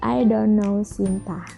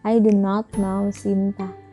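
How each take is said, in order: First: Do not is shortened into one syllable. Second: Do not is said as two full words. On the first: "lebih mudahan disingkat" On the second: "Kalau misalkan nggak disingkat"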